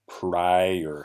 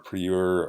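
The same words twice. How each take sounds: First: The first vowel sounds like 'eye', a long I. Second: The first vowel sounds like 'ee', Spanish-style. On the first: The speaker calls it right. "this I says uh, what we call its long sound" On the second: The speaker calls it wrong. "It's not prior or prior or anything like that"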